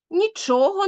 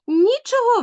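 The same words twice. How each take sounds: First: "Нічого" stressed on ЧО; stress on second syllable. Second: "Нічого" stressed on НІ; stress on first syllable. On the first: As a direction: lean on the middle syllable of "Нічого". (наголос у слові «Нічого» на другий склад: ЧО) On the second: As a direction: hit the opening syllable of "Нічого". (наголос у слові «Нічого» на перший склад: НІ) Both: Shown as a demonstration. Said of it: "наголос вирішує все".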